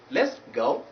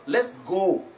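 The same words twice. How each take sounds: First: "go" gliding towards u; diphthong oh. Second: "go" as drawn-out "gaw"; slow "go" on one unglided o; wrong pure vowel. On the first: Teacher repeating the right phrase, gliding diphthong. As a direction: lower "Let's go", vowel sliding into u. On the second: Teacher repeating the mistake, pure o. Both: Shown as a demonstration. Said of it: "not let's go".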